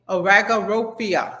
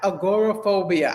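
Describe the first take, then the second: First: The word begins with the sounds 'arago'. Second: The word begins with the sounds 'agora'. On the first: The speaker calls it wrong. "that ain't how you say it" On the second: The speaker calls it right. "It's agoraphobia"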